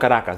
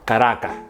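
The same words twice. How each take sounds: First: The word ends without a breath. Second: The word ends with an audible breath. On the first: The speaker calls it wrong. "they're not from Caracas" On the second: The speaker calls it right. "You hear the breath at the end"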